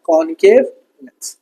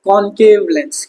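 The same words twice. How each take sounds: First: कॉनकेव लेंस said lower and slow, rising at the end; teacher repeating the answer lower, with a rising tune; slow answer with a rise. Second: कॉनकेव stressed, slow, falling at the end; teacher giving the answer slowly. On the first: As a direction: drag out कॉनकेव and lift the end like a prompt. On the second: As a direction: spell out कॉनकेव लेंस slowly with a falling close. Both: Shown as a demonstration. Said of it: "क्या आता है?".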